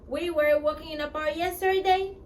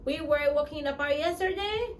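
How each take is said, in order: Both takes have the same delivery.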